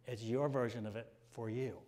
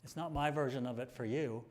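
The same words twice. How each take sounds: First: The word your leaned on, then falling; stress on your. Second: The word my leaned on, then falling; stress on my. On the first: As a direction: lean on your to set it against my. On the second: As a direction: lean on my to set it against your. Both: Shown as a demonstration.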